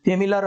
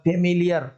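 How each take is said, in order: First: "फेमिलियर" shortened to fe-mi-lar, no "i" glide; unused pronunciation. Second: "फेमिलियर" with a "yar" glide, fe-mi-li-yar; normal pronunciation. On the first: Teacher shows what we do not say, glide-less pronunciation. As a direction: say "फेमिलियर" ending in a plain "lar". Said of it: "हम बोलते नहीं है". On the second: Teacher shows how we normally say it, glide-ending pronunciation. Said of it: "normally जो हम बोल रहे हैं". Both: Shown as a demonstration.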